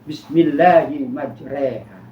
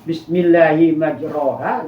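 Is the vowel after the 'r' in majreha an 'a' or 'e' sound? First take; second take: e sound; a sound. First: The vowel after the r sounds like e. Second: The vowel after the r sounds like a. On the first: This is how it is actually recited. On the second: This is how it is written. "ada yang tulisannya"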